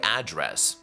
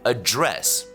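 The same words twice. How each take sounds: First: It is said with the noun stress pattern. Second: It is said with the verb stress pattern. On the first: It means a place where someone lives. "做名词讲的时候呢，这个词念 address" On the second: It means to give a speech. "在做动词讲的时候呢，这个词要念作address"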